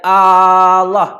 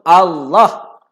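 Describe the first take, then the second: First: The first vowel is drawn out long. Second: The first vowel is short. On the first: The speaker calls it wrong. "A panjang sangat... bukan Allah. Tak boleh" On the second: The speaker calls it right. "Kena basuh Allah"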